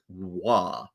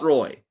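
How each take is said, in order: First: The name is said the French way, like 'wah'. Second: The name is said the English way, like 'roy'. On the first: The speaker calls it right. "French Canadian" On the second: The speaker calls it wrong. "not the French way of saying it"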